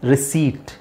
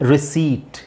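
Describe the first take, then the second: First: The p sound is left out. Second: The p sound is left out.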